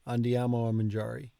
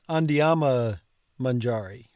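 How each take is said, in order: First: The small word 'a' is pronounced separately. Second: The words run together with no separate 'a'. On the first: "going to an effort to put the ah in" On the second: "running it all together"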